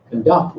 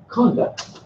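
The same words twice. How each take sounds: First: DUCT in Conduct stressed, verb form; second-syllable stress. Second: CON in Conduct stressed, noun form; first-syllable stress. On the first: Teacher explains verb's sentence position, end-stressed Conduct. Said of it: "appear in the second position". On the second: Teacher explains noun's position, front-stressed Conduct. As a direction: hit the start of Conduct. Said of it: "can appear elsewhere". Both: Shown as a demonstration.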